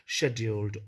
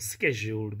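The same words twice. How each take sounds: First: The word is said in a British pronunciation. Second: The word is said in an American pronunciation. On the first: "Britishers scheduled" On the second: "American scheduled"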